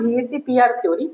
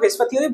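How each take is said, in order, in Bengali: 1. VSEPR আলাদা আলাদা অক্ষর হিসেবে উচ্চারিত হয়। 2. VSEPR একটি শব্দ হিসেবে উচ্চারিত হয়। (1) "অ্যাকচুয়ালি এটার নাম ভিএসি পিআর theory" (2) "this is not correct one"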